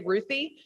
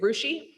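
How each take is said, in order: First: The middle consonant is a 'th' sound. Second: The middle consonant is an 'sh' sound. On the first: "the Russian language does not have the T H sound, so they can't say Ruthie" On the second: "they say Rushi"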